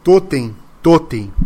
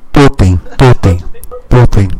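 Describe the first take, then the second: First: "totem", each one punched separately with a falling tone; spoken thuds. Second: Very loud, low, heavy "totem" beats; booming thuds. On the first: Game master sounding out the trembling room, "totem" as measured falling thuds. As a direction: hit "totem" firmly, pausing after each. Imitating the golem's heavy thuds. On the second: Game master sounding out the collapse, deep booming thuds. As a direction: boom out each word deep and hard, like pounding stone. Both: Acted.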